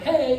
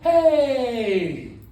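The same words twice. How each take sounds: First: The greeting sounds plain and neutral. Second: The greeting sounds warm and friendly. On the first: This is just ordinary politeness. The speaker calls it wrong. "Instead of hey" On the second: We already know each other from somewhere. The speaker calls it right. "that sounds so much more friendly"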